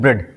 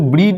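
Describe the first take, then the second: First: The vowel is a single short e sound. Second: The vowel is a single long ee sound. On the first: The speaker calls it right. "ए को यहाँ पे silent कर देंगे, इसको पढ़ेंगे ब्रेड" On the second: The speaker calls it wrong. "इसको ब्रीड नहीं पढ़ेंगे"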